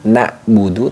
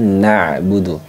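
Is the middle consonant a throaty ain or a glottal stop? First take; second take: glottal stop; ain. First: The middle consonant is a sharp glottal stop. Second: The middle consonant is a voiced throat sound. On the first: The speaker calls it wrong. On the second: The speaker calls it right.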